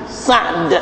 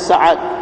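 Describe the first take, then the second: First: The name ends in two consonants, no vowel between. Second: A vowel is inserted between the final two consonants. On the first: This is the original Arabic form. "sebutan asalnya Sa'd ... ain mati" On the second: This is the simplified Malay form. "maka dimudahkan aja Sa'ad"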